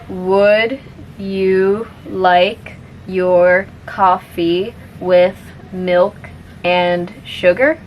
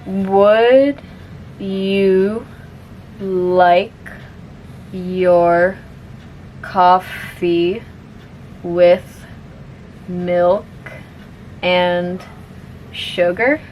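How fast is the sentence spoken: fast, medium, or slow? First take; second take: medium; slow. First: The sentence is spoken a little faster. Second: The sentence is spoken very slowly. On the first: "a little bit faster now" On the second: "I'll say it slowly first"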